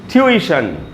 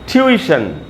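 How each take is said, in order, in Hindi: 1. तीन अक्षर, बीच के ee पर ज़ोर। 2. तीन अक्षर, बीच के ee पर ज़ोर।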